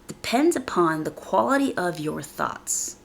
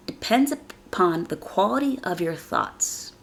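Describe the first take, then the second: No difference in how they are said.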